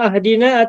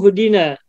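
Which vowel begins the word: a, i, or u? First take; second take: a; u. First: The word begins with an 'a' vowel. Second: The word begins with a 'u' vowel. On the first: "ihdina atau ahdina atau uhdina?" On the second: "ihdina atau ahdina atau uhdina?"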